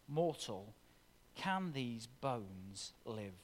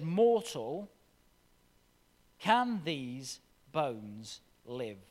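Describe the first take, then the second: First: Quieter, slow and inward, said to each listener; soft personal question. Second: Slow, drawn-out question, a little louder; solemn divine question. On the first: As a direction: let it sink in, almost under your breath. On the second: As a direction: ask it slowly like God speaking from above. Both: Acted. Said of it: "repeated to the listeners".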